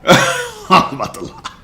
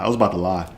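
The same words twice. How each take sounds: First: Laughing repeat of the admission. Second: Said in the usual way. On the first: Real, not acted. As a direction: laugh it out at himself.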